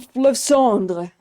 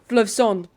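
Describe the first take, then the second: First: The final 're' sound is pronounced. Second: The final 're' sound is dropped. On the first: "I'm pronouncing it the real French way" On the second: "A real French person would not even say the R E at the end. They would just Fleuve like this"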